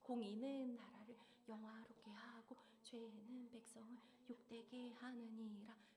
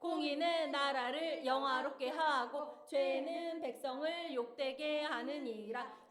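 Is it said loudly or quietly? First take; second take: quietly; loudly. First: It is said in a small, quiet voice. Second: It is said at normal, louder volume.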